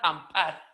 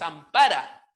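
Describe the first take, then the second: First: The final vowel is dropped, ending on r. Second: The word ends with a final a vowel. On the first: "al momento de pronunciarla, ampar, hay como una caída vocálica" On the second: "la palabra es ampara"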